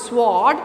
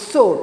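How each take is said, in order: First: "sword" with the w sounded; mispronounced sword. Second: "sword" with a silent w; correct sword. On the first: Teacher showing how not to say "sword", w sounded. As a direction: say "sword" wrongly, sounding the w after the s. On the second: Teacher correcting "sword", said with silent w. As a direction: say "sword" like "sord", no w. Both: Shown as a demonstration. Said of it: "It should be pronounced as sword".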